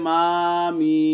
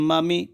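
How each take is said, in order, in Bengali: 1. স্বরধ্বনিগুলো টেনে ধীরে পড়া হয়। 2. স্বরধ্বনিগুলো ছোট এবং দ্রুত পড়া হয়। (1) "কেউ যদি বলে মামি তাহলে ভুল হবে" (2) "হরকতের উচ্চারণ তাড়াতাড়ি পড়িতে হয়"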